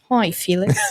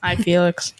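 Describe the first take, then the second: First: It is said in a put-on British accent. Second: It is said in the speaker's own American accent.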